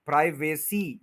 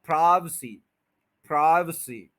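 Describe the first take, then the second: First: प्राइवेसी with a full long "vay"; wrong way. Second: प्राइवेसी as "PRAAI-v'-see", stressed start; correct short vowel. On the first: Teacher shows the error to avoid, mispronunciation. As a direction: say "praai-VAY-see" for प्राइवेसी. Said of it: "वेसी, ये गलत है". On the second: Teacher corrects the long vowel, schwa middle. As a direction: squeeze the middle of प्राइवेसी to "vuh". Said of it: "ए को लंबा नहीं करना". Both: Shown as a demonstration.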